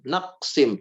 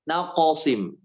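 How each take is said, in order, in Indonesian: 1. Bunyi q datar, tanpa pantulan. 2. Bunyi q memantul dengan sedikit vokal. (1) "naqsim tanpa pantulan" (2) "naqsim memantul ke bunyi o"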